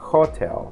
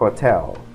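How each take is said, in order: First: The stress is on the first syllable. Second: The stress is on the second syllable. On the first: The speaker calls it wrong. "no haga un sonido tónico en la primera sílaba. No diga hotel" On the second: The speaker calls it right. "se pronuncia hotel"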